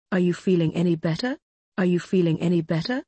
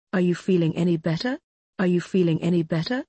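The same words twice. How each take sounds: The two takes are said the same way.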